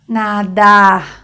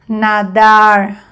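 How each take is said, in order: First: The final r sounds like a French r. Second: The final r sounds like an English r. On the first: "semejante al de francés o a un J en español" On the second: "Primer ejemplo en inglés"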